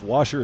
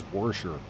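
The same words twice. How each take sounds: First: Washer said with a plain open AW, no R; without the R. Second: Warsher with an R slipped in before the SH; added R. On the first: Explaining regional speech to viewers, washer without the R. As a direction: say washer without any added R. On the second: Showing how southern speakers say it, warsher with added R. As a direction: say warsher, R in the first syllable. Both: Shown as a demonstration. You add an R.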